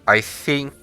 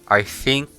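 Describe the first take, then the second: No difference in how they are said.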